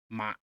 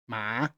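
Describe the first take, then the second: First: The pitch falls sharply downward. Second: The pitch rises like a question. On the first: "you pull your voice down" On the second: "You have to pull your voice up"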